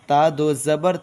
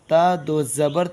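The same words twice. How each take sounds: Both takes have the same delivery.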